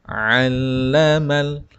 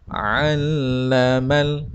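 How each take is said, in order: Both takes have the same delivery.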